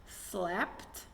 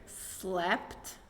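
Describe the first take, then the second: No difference in how they are said.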